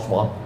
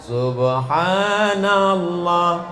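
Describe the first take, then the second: First: It is said very fast and slurred. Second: It is said very slowly and drawn out. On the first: "bunyinya udah nggak jelas" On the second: "terlalu pelan"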